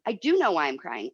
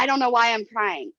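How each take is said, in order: First: "do" hit firmly with a falling tune, sincere; stress on DO. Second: "don't" pushed up and leaned on, teary mock apology; stress on DON'T. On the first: Real, not acted. Correcting her own quote to the co-host, stress on "do". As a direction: lean hard on "do" to correct herself. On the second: Confiding in her co-host, stressing "don't" as she mimics herself. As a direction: hit the word "don't" hard.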